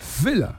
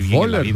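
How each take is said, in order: First: Starts with an f sound and ends in a. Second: Read with Spanish sounds, ending in er. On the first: This is the original German pronunciation. "porque lo pronunciaba así" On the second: This is how Spanish speakers say it. "pero nosotros cómo nos suena"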